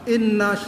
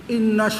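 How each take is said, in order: The two takes are said the same way.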